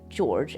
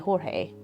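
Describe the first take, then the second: First: The name starts with a soft j sound. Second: The name starts with an h sound. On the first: The speaker calls it wrong. "they pronounce it George anyway" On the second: The speaker calls it right. "but it should be Jorge"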